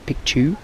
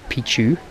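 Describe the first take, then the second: First: The first syllable sounds like 'pick'. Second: The first syllable sounds like 'pee'. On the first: It means mountain. The speaker calls it right. "Picchu, like picture, ... is how you pronounce it" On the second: It means penis. The speaker calls it wrong. "not Pichu"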